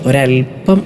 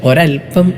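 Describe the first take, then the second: The two takes are said the same way.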